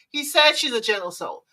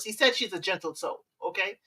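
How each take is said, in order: First: Said in the usual way. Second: Gently. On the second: Shown as a demonstration. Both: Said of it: "Gently, of course".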